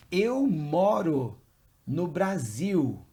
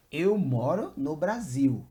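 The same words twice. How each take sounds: First: Slow and loud, for learners to copy; deliberate, drawn-out language-teacher delivery; slow model sentence. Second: Said in the usual way. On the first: Shown as a demonstration. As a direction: model it word by word, firmly stretched out. Teacher models a new answer slowly.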